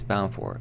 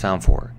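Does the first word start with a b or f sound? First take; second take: b sound; f sound. First: The first word starts with a b sound. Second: The first word starts with an f sound. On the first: The speaker calls it right. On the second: The speaker calls it wrong.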